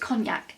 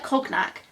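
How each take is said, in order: First: The word is pronounced differently from its letters. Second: The word is pronounced letter by letter, as spelled. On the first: The speaker calls it right. "but I think it's cognac" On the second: The speaker calls it wrong. "It's spelt like cognac"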